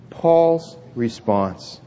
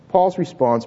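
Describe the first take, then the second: First: Slow, drawn-out phrase for the congregation to echo; slow lead-in. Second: Said in the usual way. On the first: Shown as a demonstration. Pastor leading the church to repeat, slowly. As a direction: stretch each word so they can repeat it. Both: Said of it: "Let's say that together".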